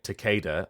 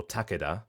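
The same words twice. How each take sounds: First: First Takeda with stressed "KAY": tuh-KAY-duh; anglicised pronunciation. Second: Takeda stressed up front: TACK-eh-da; alternative pronunciation. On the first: Voice actor showing two readings, anglicised Takeda. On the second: Voice actor showing two readings, front-stressed Takeda. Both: Shown as a demonstration. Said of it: "whether you're pronouncing it Takeda or Takeda".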